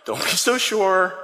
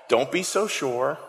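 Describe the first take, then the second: First: Slow, smiling gentle warning; with a smile. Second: Said in the usual way. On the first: Acted. Christ answering overconfident Peter, with a smile. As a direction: chide him fondly, drawing it out. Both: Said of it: "think of Christ with a smile".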